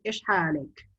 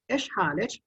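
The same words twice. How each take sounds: First: حالك said "halik", ending in k; masculine ending -k. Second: حالك said "halich", ending in ch; feminine ending -ch. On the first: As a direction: close حالك on a k sound. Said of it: "That is for the male". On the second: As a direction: close حالك on ch, as in church. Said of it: "for the female". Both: Shown as a demonstration.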